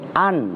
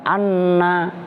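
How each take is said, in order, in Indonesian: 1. Bunyi n pendek, tanpa vokal sesudahnya. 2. Bunyi n rangkap dan diikuti vokal.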